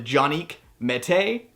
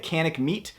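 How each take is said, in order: First: It is said with a Turkish pronunciation. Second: It is said with an American English pronunciation.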